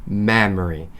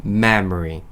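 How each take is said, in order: No difference in how they are said.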